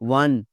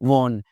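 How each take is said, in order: First: The vowel sounds like the one in un. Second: The vowel sounds like the one in on. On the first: The speaker calls it right. "Win की second form है वन" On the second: The speaker calls it wrong. "वॉन नहीं है भाई"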